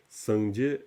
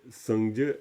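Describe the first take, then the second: No difference in how they are said.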